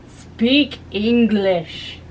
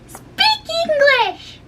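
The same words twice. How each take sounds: First: It is said in a plain, uncutesy voice. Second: It is said in a cute, sweet voice.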